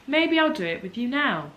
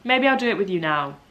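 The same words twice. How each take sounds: First: Higher-pitched repeat. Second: Said in the usual way. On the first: Real, not acted. Repeats the idea, warming to it.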